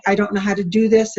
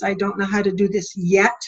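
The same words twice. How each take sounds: First: Said in the usual way. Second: Yet stressed with a rising tune. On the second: Shown as a demonstration. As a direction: lift and hold the word yet at the end. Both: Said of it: "a big poster that says "Yet".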